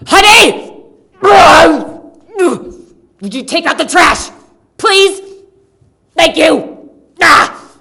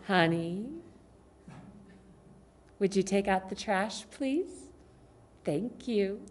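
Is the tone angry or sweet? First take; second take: angry; sweet. First: It is said in an angry, harsh tone. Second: It is said in a sweet, warm tone.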